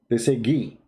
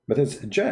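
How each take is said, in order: First: The letter begins with a hard G sound. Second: The letter begins with a soft J sound. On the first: This is how people in Egypt say it. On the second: This is the standard pronunciation.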